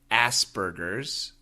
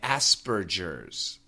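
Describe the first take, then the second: First: The g is a hard g sound. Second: The g is a soft j sound. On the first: "In America, we say Asperger's ... in America, we say G" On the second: "they pronounce the J, the G as a J"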